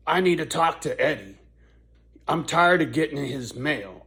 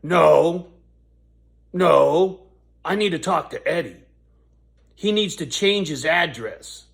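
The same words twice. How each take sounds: First: Aggravated lady. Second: Loud, higher, insistent no, no; mock the rude lady shouting him down; a loud imitation of the angry neighbour lady. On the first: Retold or imitated. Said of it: "she was really aggravated". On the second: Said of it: "she's being really rude".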